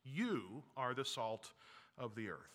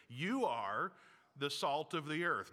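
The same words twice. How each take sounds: First: "You are the salt" spoken very slowly, "of the earth" sinking much softer; slow quiet affirmation. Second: "You" lifted and pushed, then "the salt of the earth" firm; stress on YOU. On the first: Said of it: "you say that again". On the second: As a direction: point at yourself on "You" in "You are the salt of the earth". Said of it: "you look in the mirror and you say that again". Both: Shown as a demonstration.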